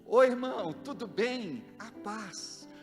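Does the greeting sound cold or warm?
warm. The greeting sounds warm and welcoming. The greeting conveys love and welcome. The speaker calls it right.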